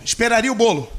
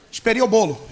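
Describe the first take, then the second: First: Said in the usual way. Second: Esperia said with a syllable dropped, esperia instead of esperaria; mispronounced Esperia, caught at once; slip of the tongue. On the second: Real, not acted. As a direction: trip over Esperia and swallow the middle syllable.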